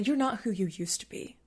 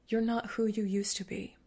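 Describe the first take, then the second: First: It is said in a harsh, critical tone. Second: It is said in a calm, compassionate tone.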